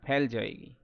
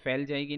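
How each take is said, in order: First: The word begins with an aspirated p sound. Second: The word begins with an f sound. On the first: The speaker calls it right. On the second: The speaker calls it wrong.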